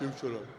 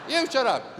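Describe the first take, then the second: First: Low, softer mocking echo; imitated man's voice. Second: Loud, higher-pitched retort; angry husband. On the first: Wife echoing husband's retort, low mocking imitation. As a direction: parrot it back in a low man's voice. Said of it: "imitate the voice of the man". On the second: Acted. Husband snapping at his mimicking wife, loud and angry. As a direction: fire it back loud and high. Husband snaps back in acted row.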